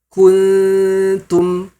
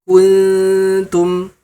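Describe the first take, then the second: The two takes are said the same way.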